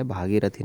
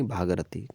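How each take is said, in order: First: भागीरथी with a long ई after ग; long i form. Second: भागरथी with no vowel after ग; the word भागरथी, ग straight into र; no i form. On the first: Teacher contrasting for students the long ई form. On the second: Teacher giving students the form without ई. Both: Shown as a demonstration. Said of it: "भागीरथी नहीं".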